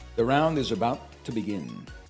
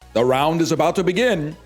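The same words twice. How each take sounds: First: It is said in an ordinary speaking voice. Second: It is said in a dramatic announcer voice.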